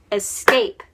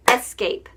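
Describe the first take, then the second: First: "escape" stressed on the second syllable, es-CAPE. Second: "escape" stressed on the first syllable, ES-cape; wrong-syllable stress. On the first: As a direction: punch the end of "escape": es-CAPE. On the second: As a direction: punch the start of "escape": ES-cape. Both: Shown as a demonstration. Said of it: "if it's the wrong syllable".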